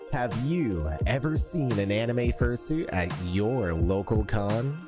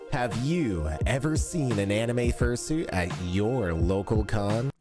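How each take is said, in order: First: Background noise is removed by a noise suppressor. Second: Background noise is left in without suppression. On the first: "with uh, the noise suppression on Adobe" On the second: "if we now remove the denoiser"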